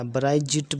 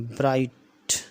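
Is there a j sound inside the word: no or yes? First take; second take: yes; no. First: It is said with a j sound before the t. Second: It is said as one syllable without a j sound. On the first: The speaker calls it wrong. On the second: The speaker calls it right.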